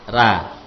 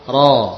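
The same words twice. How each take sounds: First: The r is said light and thin. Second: The r is said heavy and thick. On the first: "Ra fathah yang tipis" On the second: "Ra fathah tebal ya"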